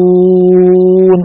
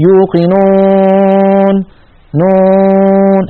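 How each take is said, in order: First: يوقنون slow with a clean oral waw, no nasality; pure waw. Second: يوقنون very slow with a nasalized waw through the nose; nasal waw. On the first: Teacher modelling the clean, pure waw. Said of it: "لا بد أن نخرجها صافية نقية". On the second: Teacher imitating reciters' nasal waw error. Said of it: "هل لاحظتم هذا الصوت". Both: Shown as a demonstration.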